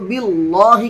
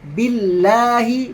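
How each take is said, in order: First: The L sound is thick and heavy. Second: The L sound is thin and light. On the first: The speaker calls it wrong. "लाम को बिल्लाहि कर देते हैं। ऐसे नहीं करना है।" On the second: The speaker calls it right. "बिल्लाहि बिल्कुल सिंपल"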